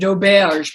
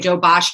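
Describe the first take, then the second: First: It is said with a standard French pronunciation. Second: It is said with a Cajun French pronunciation. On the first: "That's French pronunciation" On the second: "in Cajun French, we say"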